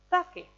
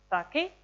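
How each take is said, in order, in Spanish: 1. El tono baja de la primera sílaba a la segunda. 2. El tono sube de la primera sílaba a la segunda. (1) "y ahora para abajo" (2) "primero para arriba"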